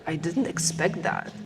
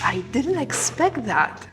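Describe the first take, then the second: First: The voice sounds annoyed and irritated. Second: The voice sounds excited and enthusiastic. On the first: The surprise is an unwelcome one. "say it as if you were annoyed" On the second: The surprise is a pleasant one. "say it as if you were excited"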